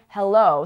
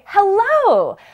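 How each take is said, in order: First: The word is said quietly and timidly. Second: The word is said loudly and confidently. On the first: The speaker sounds unsure. The speaker calls it wrong. "Instead of saying hello" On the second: The speaker sounds confident. The speaker calls it right. "Raise your voice with confidence"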